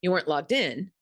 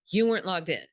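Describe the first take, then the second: First: You weren't LOGGED IN, weight on logged in; stress on logged in. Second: YOU weren't logged in, you pressed hard; stress on you. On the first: Coaching a manager, the fair take with stress on logged in. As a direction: push logged in, not you. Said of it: "I might put the emphasis on". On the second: Coaching a manager, the blaming take with stress on you. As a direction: lean on the word you, making it blame. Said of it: "I wouldn't put the emphasis on you". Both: Shown as a demonstration.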